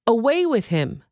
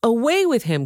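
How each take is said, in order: First: Higher, falling crowd yell; a first, lighter yell of rejection. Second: Higher and louder, Away hit hard; louder yell. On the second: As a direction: push the repeated cry harder than the first. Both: Acted. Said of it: "they yelled".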